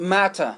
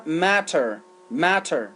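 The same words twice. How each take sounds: First: "matter" with no final R, "matta"; British "matter", ending in an open "a"; British pronunciation. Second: "matter" with the final R sounded; American "matter", R-coloured last syllable; American pronunciation. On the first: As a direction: drop the R at the end of "matter". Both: Shown as a demonstration.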